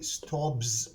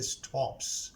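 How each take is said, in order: First: The final sound is a voiced z. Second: The final sound is a voiceless s. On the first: The speaker calls it wrong. "we do not say stops" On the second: The speaker calls it right. "we pronounce the s as se. ... we say stops"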